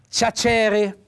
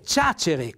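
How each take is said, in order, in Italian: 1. L'accento cade sulla seconda sillaba. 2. L'accento cade sulla prima sillaba. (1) "c'è un accento tonico sbagliato, perché è stato messo sulla E" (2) "l'accento tonico fa sul, va sulla A"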